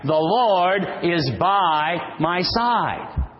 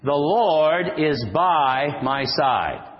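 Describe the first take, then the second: First: Slow, emphatic declaration with Lord lifted higher; more enthusiasm. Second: Said in the usual way. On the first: Shown as a demonstration. Preacher demonstrating a livelier response to the congregation, slow and emphatic. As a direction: declare it with conviction, dwelling on Lord. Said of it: "We need a little more enthusiasm". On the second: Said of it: "Pretty weak".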